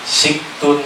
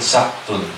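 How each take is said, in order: First: The first vowel is an i sound. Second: The first vowel is an a sound. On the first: "Siktun boleh dibaca suktun, boleh dibaca saktun" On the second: "boleh dibaca saktun"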